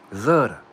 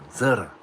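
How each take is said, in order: First: The word begins with a Z sound. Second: The same.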